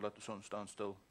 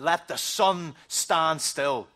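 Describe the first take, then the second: First: It is mumbled quietly and without force. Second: It is said boldly and loudly with force. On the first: A timid, private request. The speaker calls it wrong. "didn't just stand there and mumble" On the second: A confident, public declaration. The speaker calls it right. "he prayed it in front of the whole army of Israel"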